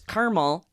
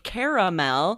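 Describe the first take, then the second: First: The middle vowel is dropped, giving two syllables. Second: The middle vowel is kept, giving three syllables. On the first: "you might spell it without that A in the middle" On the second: "it sounds like how it's spelled"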